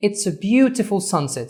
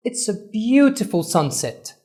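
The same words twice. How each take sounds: First: Slow, "beautiful" stressed; stress on BEAU. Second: Slow, "beautiful" drawn out and raised; stress on BEAU. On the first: Teacher repeating demo, stressed "beautiful". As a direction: lean on BEAU slowly. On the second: Teacher demo sentence, slow stressed "beautiful". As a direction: stretch "beautiful" slowly. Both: Shown as a demonstration. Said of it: "أول syllable ... عملنا stress on".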